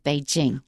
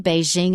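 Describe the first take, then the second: First: Beijing is said closer to the Chinese pronunciation. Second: Beijing is said with the American pronunciation. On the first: "the right way to say it" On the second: "the American pronunciation of Beijing"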